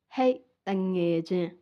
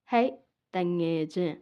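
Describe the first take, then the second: No difference in how they are said.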